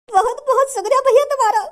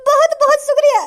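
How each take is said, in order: First: Tearful thanks. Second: Louder thanks. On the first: Beggar thanks rescuer, first take. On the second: Beggar thanks rescuer, repeated louder. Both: Acted.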